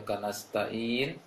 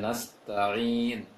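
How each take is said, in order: First: The consonant sounds like a plain glottal stop. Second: The consonant is a throaty pharyngeal ain sound. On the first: The speaker calls it wrong. "pengucapan ain dari bacaan Budi kurang, masih agak terarah ke uh, Hamzah" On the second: The speaker calls it right. "seharusnya nasta'in"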